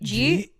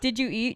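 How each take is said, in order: First: It is squashed into one syllable, jeat. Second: It is said as three separate words.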